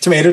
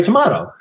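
First: "tomato" with a long A, "tuh-MAY-toe". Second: "tomato" with an AH, "tuh-MAH-toe"; broad-A tomato. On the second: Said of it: "I mean, tomato". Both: Shown as a demonstration.

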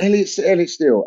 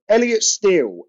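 First: Quick, half-listening name check; boss repeating name. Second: Higher, bare compere-style name call; mock flat announcement. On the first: Retold or imitated. Boss checking the comedian's name, quick and careless. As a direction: mumble the name back fast. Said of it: "And he went". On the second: Boss introducing the comedian on the mic, bare announcement. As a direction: announce him with zero fanfare. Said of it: "he just went".

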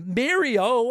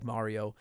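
First: MARIO said as MAIR-ee-oh, drawn out; variant pronunciation. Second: Said in the usual way. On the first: Shown as a demonstration. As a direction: say "Mario" with an AIR vowel in the first syllable. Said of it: "I could live with". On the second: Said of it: "but I like Mario".

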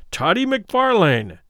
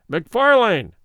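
First: Slow, higher, louder repeat of the name; insistent repeat. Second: Called out like a herald, higher and louder; loud herald's call up the stairs; somewhat loud. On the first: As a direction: drag the name out to pin him down. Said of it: "repeated Fetz". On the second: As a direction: announce his name across the hall. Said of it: "he said somewhat loudly". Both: A narrator's reading.

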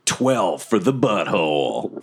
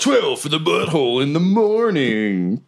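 First: Smooth low late-night radio host. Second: Radio DJ voice. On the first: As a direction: purr it like a radio DJ. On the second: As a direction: pitch it like a morning-show host. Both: Pretend. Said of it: "Sound like a radio D J".

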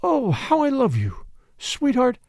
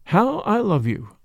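First: Tender murmur. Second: Slow tender murmur. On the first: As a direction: breathe it close to his ear. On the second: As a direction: linger on it, barely above a breath. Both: Acted. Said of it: "murmured in his ear".

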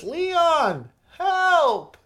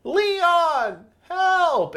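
First: Ashley's falsetto cry for help; high whiny mock plea for rescue; high pleading cry. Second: Falsetto whine for Leon; repeated high mock cry for help; high pleading cry. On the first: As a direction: squeal it way up high, like a helpless girl calling out. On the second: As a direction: shriek it up high, begging to be saved. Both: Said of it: "and it was".

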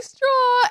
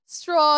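First: "Straw" echoed very high and louder; delighted mock echo of "Straw", pitched way up; mimicking admirers. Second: Put-on "Straw" in a British accent, pitched up. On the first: Women parroting the British visitor's word, high mimicry. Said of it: "And they're like". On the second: British visitor obliging women in a bar, British accent. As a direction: imitate a Brit saying "Straw". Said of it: "say them in his British accent".

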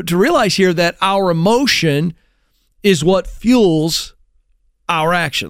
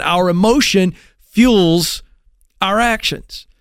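First: Said in the usual way. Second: "fuels" drawn out and weighted, slow; slow stress on fuels. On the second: Shown as a demonstration. Speaker repeating his key point to the audience, slow stress on "fuels". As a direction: lean slowly on the word "fuels". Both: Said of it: "Let me say that again".

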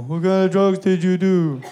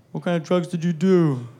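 First: Lightly voiced claymation person, laughing through it; a hint of a little stop-motion kid, cracking up. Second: Lightly voiced little claymation person; claymation kid voice. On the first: Sons quizzing their dad, laughing claymation kid voice. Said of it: "like little fucking claymation people". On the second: Sons quizzing their dad, lightly voiced claymation kid. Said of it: "That's how they talk, like little fucking claymation people".

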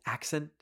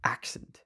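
First: "Accent" said oddly, rising and soft; soft puzzled "Accent?" as if it's not a word; mispronounced accent. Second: "Accent" squashed into one whispered syllable; breathy one-beat "Accent". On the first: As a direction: test the word "Accent" as if it sounds wrong. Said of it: "Why does that sound like it's not a word". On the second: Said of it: "How did I make that into one syllable". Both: Shown as a demonstration.

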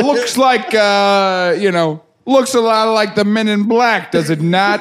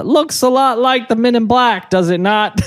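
First: Laughing copy of a Brooklyn guy; mock New York tough guy; imitating Brooklyn accent. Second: Gruff New York detective voice; Brooklyn accent. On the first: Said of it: "Why'd you say it like that?". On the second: Acted. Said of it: "I don't like the way you said it".

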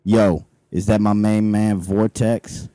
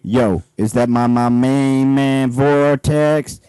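First: Low street guard voice. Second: Put-on low and slow greeting to an old pal; slow low street guard voice. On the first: Acted. Guard greets Vortex. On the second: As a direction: drag out my main man slowly. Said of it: "You missed a my in there".

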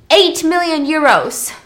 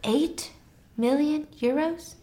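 First: "eight million euros" loud, higher and slow, falling at the end; emphatic reveal. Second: "eight million euros" softer, halting, rising question; incredulous echo. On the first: Telling Snow the painting's worth, loud emphatic "eight million euros". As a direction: land "eight million euros" as a big announcement. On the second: Echoing the painting's worth, hushed questioning "eight million euros". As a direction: pause after "Eight", then lift "million euros" questioningly. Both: Retold or imitated.

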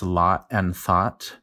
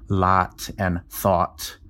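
First: Lot and thought both with an open ah; same vowel. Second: Lot with open ah, thought with rounded aw; two different vowels. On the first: New Mexico linguist showing his own vowels, merged ah in lot and thought. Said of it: "they're both ah". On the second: Linguist imitating dialects east of the Mississippi, distinct vowels in lot and thought. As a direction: slowly contrast ah in lot, aw in thought. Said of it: "pronounce those as two different". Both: Shown as a demonstration.

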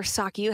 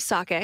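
First: Sake ending in an "ee" sound; sake as sah-kee. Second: Sake ending in an "ay" sound; sake as sah-kay. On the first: Radio host unsure of the word, sake said sah-kee. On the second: Radio host telling of a hilltop ceremony, sake said sah-kay. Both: Shown as a demonstration. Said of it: "however it's pronounced".

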